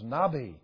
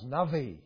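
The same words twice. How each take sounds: First: The middle consonant is a B sound. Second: The middle consonant is a V sound. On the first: The speaker calls it wrong. "this is Navi. It's not" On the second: The speaker calls it right. "the letter B is really pronounced like a V"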